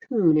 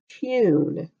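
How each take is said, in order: First: The vowel is a plain oo sound: toon. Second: The vowel starts with a y sound: tyoon. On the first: This is how it is said in the United States. "here in the United States, we like to say things easily, and so we just say" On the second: This is how it is said in England. "In England, they'll often say this with a U instead of an oo sound"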